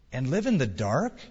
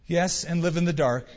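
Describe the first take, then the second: First: "dark" rising at the end as a question. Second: "dark" falling as a settled statement; confirming answer. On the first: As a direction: ask it, lifting the pitch on "dark". Woman questions stranger in the story. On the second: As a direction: confirm it, letting "dark" drop. Stranger confirms her question. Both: A narrator's reading.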